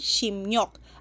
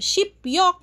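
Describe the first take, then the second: First: The middle consonant is an M sound. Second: The middle consonant is a P sound. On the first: "magiging shimyok" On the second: "from shipyok"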